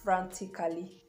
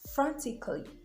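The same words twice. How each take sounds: First: The vowel before the final ly is fully sounded. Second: The vowel before the final ly is silent. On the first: The speaker calls it wrong. "these words are not" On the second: The speaker calls it right. "The letter A is silent in some words"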